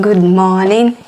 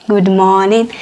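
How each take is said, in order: No difference in how they are said.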